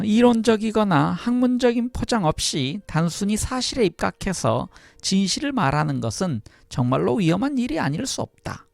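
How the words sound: It is read in an imitated female voice.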